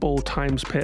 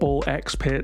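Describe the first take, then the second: First: The middle letter is said as times. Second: The middle letter is said as ex. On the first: "and all sorts of pronunciations" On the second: "you'll be hearing a lot of"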